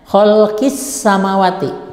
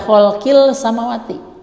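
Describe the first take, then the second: First: The article's l merges into the following s. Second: The article's l is clearly pronounced before s. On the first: The speaker calls it right. "Sehingga dibacanya khalqis samawati" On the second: The speaker calls it wrong. "Tidak boleh dibaca khalqil samawati"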